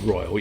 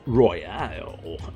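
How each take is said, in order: First: It is said as an ordinary word, royal. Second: It is said with unusual stress, like royale.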